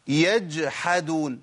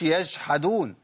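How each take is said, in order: First: The second consonant is a j sound. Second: The second consonant is a sh sound. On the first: The speaker calls it right. "مثال تالت مع الحاء" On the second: The speaker calls it wrong. "ما اقولش ... لا يا شيخ ما ينفعش"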